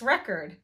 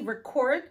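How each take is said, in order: First: The stress is on the first syllable. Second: The stress is on the second syllable. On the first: It is used as a noun. "the stress is on the initial syllable in the nouns" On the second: It is used as a verb. "on the second or final syllable in the verbs"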